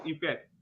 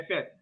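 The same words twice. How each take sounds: First: Effect opening on an "ee" sound; corrected effect. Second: Effect opening on a short "eh"; mispronounced effect. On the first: Shown as a demonstration. Official correcting a contestant's answer, effect said as "ee-fect". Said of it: "It's effect". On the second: Retold or imitated. Official quoting the faulty answer back, mispronounced effect. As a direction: say effect as "eh-FECT". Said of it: "No, you are wrong".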